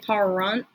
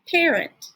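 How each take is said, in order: First: The first vowel sounds like the one in car. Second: The first vowel sounds like the one in care. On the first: The speaker calls it wrong. "We don't say parent" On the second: The speaker calls it right. "We say parent"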